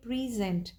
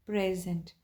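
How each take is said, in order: First: "present" stressed on the second syllable, pree-ZENT; verb stress. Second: "present" stressed on the first syllable, PREZ-ent; noun stress. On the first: Teacher showing the shifted stress, "present" said pree-ZENT. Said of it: "यहाँ पर हमारा stress". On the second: Teacher showing students the noun, "present" said PREZ-ent. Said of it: "हमारा stress different हुआ syllables के ऊपर". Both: Shown as a demonstration.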